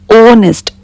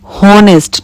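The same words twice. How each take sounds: First: The word begins directly with a vowel sound. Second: The word begins with an audible h sound. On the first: The speaker calls it right. "Here H is silent" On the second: The speaker calls it wrong. "You cannot speak like this. Honest, not ho"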